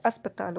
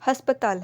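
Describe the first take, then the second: First: अस्पताल with no h at the start; correct form. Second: हस्पताल with an h at the start; wrong form. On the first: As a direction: begin अस्पताल on the bare vowel अ. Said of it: "अस्पताल होता है". (अस्पताल सही रूप, अ से) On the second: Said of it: "हस्पताल नहीं होता है". (हस्पताल गलत रूप, ह से) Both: Shown as a demonstration.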